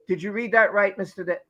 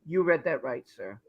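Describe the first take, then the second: First: Said in the usual way. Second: Lower, softer mock Johnny reply; mock Johnny answering the lawyer, low and soft; imitating Johnny. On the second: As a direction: answer politely and low, like a calm witness. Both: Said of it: "at least Johnny said".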